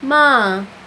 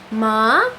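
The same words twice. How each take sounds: First: The pitch starts high and drops down. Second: The pitch starts low and rises. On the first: "you start like high and, and drop down" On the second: "you start low and go up"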